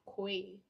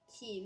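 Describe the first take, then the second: First: The word sounds like 'koi'. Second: The word sounds like 'key'. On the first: The speaker calls it wrong. "not koi" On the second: The speaker calls it right. "it is pronounced as key"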